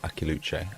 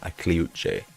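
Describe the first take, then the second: First: The name begins with 'Aki' then 'luche'. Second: The name begins with 'Akli' then 'uche'. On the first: The speaker calls it wrong. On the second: The speaker calls it right.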